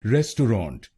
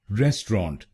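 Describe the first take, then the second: First: रेस्टोरेंट said as res-tau-rant in three syllables; three-syllable pronunciation. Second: रेस्टोरेंट said as res-tront in two syllables; two-syllable pronunciation. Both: Shown as a demonstration. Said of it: "रेस्टोरेंट या रेस्टोरेंट बोल सकते हैं".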